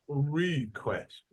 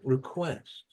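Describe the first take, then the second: First: The first syllable is said strongly. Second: The first syllable is said weakly. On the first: The speaker calls it wrong. "it's not request, right?" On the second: The speaker calls it right. "Because this is not strong"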